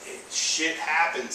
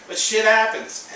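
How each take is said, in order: First: Said in the usual way. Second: Shit happens, higher, louder and slow, happens hit hard; emphatic repeat. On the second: Real, not acted. Insisting to viewers that loss just happens, emphatic and slow. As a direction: drive home shit happens with a push.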